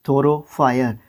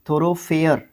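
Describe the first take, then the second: First: The last syllable sounds like 'fire'. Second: The last syllable sounds like 'fair'. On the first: The speaker calls it wrong. "फायर नहीं" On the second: The speaker calls it right. "फेयर"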